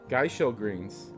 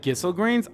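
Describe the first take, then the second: First: The first syllable sounds like 'guy'. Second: The first syllable sounds like 'giss'. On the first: This is how the speaker usually says the name. "I always call it Geishel" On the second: This is how the other person says the name. "That's how you pronounce it"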